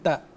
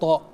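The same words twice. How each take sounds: First: The t is light and plain. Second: The t is heavy and emphatic. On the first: The speaker calls it wrong. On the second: The speaker calls it right. "Itu ta-nya itu tebal"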